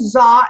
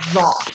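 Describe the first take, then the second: First: It is said the Egyptian way. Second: It is said the Modern Standard Arabic way. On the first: "actually like Egyptians pronounce it that way" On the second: "in modern standard Arabic, it's pronounced zaw"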